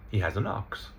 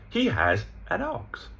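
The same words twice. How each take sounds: First: "an" with a full AN vowel; stressed article. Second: "an" reduced to a quick un; HE high, "an" left weak; unstressed article. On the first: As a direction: give "an" its full open vowel. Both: Shown as a demonstration. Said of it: "But we don't stress it".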